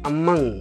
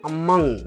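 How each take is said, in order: The two takes are said the same way.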